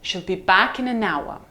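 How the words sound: The voice falls from a low pitch. "Let's try the low fall"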